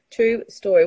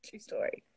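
First: Loud, voiced "true story"; emphatic confirmation. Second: Soft, voiceless "true story"; whispered aside. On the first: Capping the hot towel story, loudly insisting. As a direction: declare it out loud, firmly. Same tag repeated out loud. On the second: Capping the hot towel story, whispering. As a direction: whisper it under the breath. Same tag said softly, then aloud. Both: Real, not acted.

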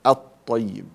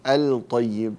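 First: الطيب with the lam merged into a doubled ط; louder, firm doubled ط in الطيب; assimilated lam. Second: الطيب with a clearly sounded l before ط; wrong-example الطيب, the l held distinct; wrongly pronounced lam. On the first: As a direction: say الطيب as at-tayyib, no l sound. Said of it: "وإنما أدغمها". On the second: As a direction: say الطيب as al-tayyib, lam unmerged. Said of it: "ولا أقول الطيب، لا أظهر اللام". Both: Shown as a demonstration.

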